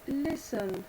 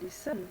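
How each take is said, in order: First: The stress is on the first syllable. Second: The stress is on the second syllable. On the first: The speaker calls it right. "on dit listen ... la syllabe accentuée n'est pas la deuxième et dernière, mais la première" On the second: The speaker calls it wrong. "et pas listen"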